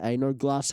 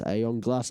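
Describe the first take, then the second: First: The name is said like 'ain't no glass'. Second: The name is said like 'eon glass'. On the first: The speaker calls it wrong. "I pronounced it ain't no glass" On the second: The speaker calls it right. "I just realized it's Aeon Glass"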